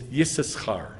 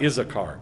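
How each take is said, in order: First: The name begins with a y sound. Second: The name begins with a plain vowel sound. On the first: The speaker calls it right. "it's Yisachar" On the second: The speaker calls it wrong. "it's not Issachar"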